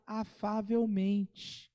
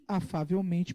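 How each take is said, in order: First: Afavelmente drawn out very slowly; stress on afavelmente. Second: Said in the usual way. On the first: Shown as a demonstration. Preacher singles out a detail for the church, afavelmente stretched slowly. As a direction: linger on every syllable of afavelmente. Repeats the word to highlight it.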